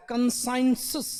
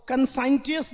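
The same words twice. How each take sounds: First: कंसाइंसिस with the t said as s, kən-saɪn-səs; real pronunciation. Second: कंसाइंटियस with the t sounded as t, kən-saɪn-ʈi-əs; spelling pronunciation. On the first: Teacher showing students the t turns to s. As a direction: say कंसाइंसिस as spoken, t becomes s. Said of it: "टी को एस बोल रहा है". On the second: Teacher reading the spelling aloud to students, t sounded. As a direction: say कंसाइंटियस letter by letter, keeping the t. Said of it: "अब यहाँ पर सस बोल रहा है". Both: Shown as a demonstration.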